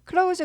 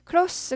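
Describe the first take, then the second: First: The word ends with a buzzing z sound. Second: The word ends with a hissing s sound. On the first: It means to shut something. "close 그러면 문을 닫다 동사예요" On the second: It means near or intimate. "close 그러면은 형용사예요"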